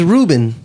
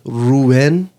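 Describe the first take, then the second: First: The name has an English pronunciation. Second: The name has a Spanish pronunciation. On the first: This is how most people say the name. "His name's Ruben" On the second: This is how his Dominican father says the name. "he's Dominican, and his dad says Ruben"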